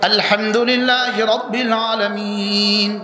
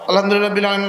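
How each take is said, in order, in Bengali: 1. এটি থেমে একটি শ্বাস নিয়ে শেষ হয়। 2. এটি থামা ছাড়াই সরাসরি পরের শব্দগুলোতে চলে যায়। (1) "ওয়া ওয়াকাফা থামতেন, ওয়া নাফাসা নিঃশ্বাস নিতেন" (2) "আমরা এক নিঃশ্বাসে সাত আয়াত"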